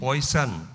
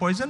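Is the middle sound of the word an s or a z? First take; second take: s; z. First: The middle consonant is a hissing s sound. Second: The middle consonant is a buzzing z sound. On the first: The character does not sound Bihari. The speaker calls it wrong. "उसको सन कर दिया आपने।" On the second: This is how it is said in Bihar. The speaker calls it right. "Bihar में तो पॉइजन ना होता है जी"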